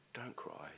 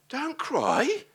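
First: Much softer, gentle don't cry; tender comfort. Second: Much higher, rising don't cry; impassioned plea. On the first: Jesus tenderly comforting the grieving widow, softly. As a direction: hush it like soothing a mourner. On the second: Preacher marvelling at Jesus' words, high and impassioned. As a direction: lift it up in wonder. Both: Acted.

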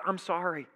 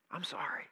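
First: Said in the usual way. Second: A remorseful whispered sorry; whispered apology. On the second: Shown as a demonstration. Preacher models a humble apology, whispered. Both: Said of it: "saying those words".

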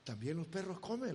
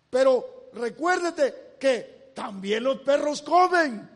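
First: Soft, low and quick, savoring the line; hushed repeat. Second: Triumphant retort. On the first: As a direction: murmur the answer to yourself. El predicador repite la respuesta. (en voz baja y rápida) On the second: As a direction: fire back the winning answer. Réplica de la mujer, predicada. (réplica triunfante en voz alta) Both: Acted.

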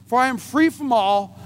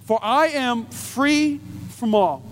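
First: "free" leaned on; stress on free. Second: Slow reading of scripture. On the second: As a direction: read the verse with weight. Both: Acted. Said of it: "This is what Paul says".

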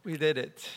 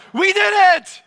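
First: Soft, understated restatement; subdued repeat. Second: Very high, very loud victory cry; jubilant shout. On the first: Preacher repeats the phrase after the cheer, quietly. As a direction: drop it right down after the cheer. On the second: Preacher leads congregation in the phrase, shouting jubilantly. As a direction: yell it in triumph for all to copy. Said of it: "say it exactly the way I say it". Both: Shown as a demonstration.

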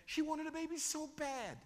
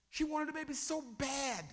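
First: Ache through the words; raised emphasis again. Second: Raised emphasis. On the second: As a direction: lean into the longing. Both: Shown as a demonstration. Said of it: "Can I demonstrate it for you?".

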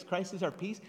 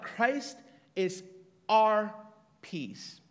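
First: Said in the usual way. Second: OUR punched very loud, set apart by pauses; pause, hit OUR hard, then drop on peace; stress on OUR. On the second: Shown as a demonstration. Stresses one word of the verse.

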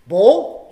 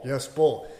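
First: BOWL? rising loud and questioning. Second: Said in the usual way. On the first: Shown as a demonstration. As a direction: ask Bowl? with a loud rise. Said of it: "acted questioning of the word". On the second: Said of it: "acted confirming of the word".

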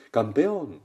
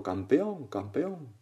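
First: Loud cheering call; father's acted shout. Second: Higher repeated call, fading off; imitated echo. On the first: Father shouts again for his son, acted loud shout. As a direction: shout it out to the mountain. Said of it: "Vuelve a gritar el, el padre". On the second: Mountain echo returns the father's cheer, fading echo. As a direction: bounce the cheer back, dying away. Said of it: "Y el eco".

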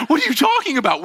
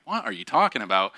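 First: High, loud startled "What are you talking about?"; alarmed child. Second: Said in the usual way. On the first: Retold or imitated. A scared kid to his teacher, high and alarmed. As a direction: ask it in shock.

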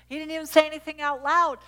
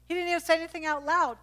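First: Louder, punching say; emphatic repeat. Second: Leaning hard on say; emphatic. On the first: Preacher repeating the point to the church, louder. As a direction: hammer the word say home. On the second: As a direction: stress on say. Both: Shown as a demonstration.

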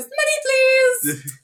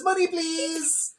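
First: High sing-song "money", then dropping; mock a greedy plea in a high, sung voice; begging military. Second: High, soft, drawn-out sing-song plea; mock a sweet plea, stretched out and high; begging corporation. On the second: Mimics corporation begging, echoing earlier joke.

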